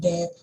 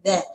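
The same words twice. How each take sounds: First: The first sound is a hard stop. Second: The first sound is a soft th sound. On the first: The speaker calls it wrong. "Kalau kita nggak keluarkan lidahnya, nanti uh, itu lebih kayak kita ngomong that" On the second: The speaker calls it right. "Jadi caranya that"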